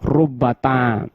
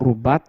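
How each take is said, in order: First: The final t carries a short vowel. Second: The final t has no vowel after it. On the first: "Karena ini berharokat" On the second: "mensukunkan tak ma'a rubba wa summa ... faqalilun"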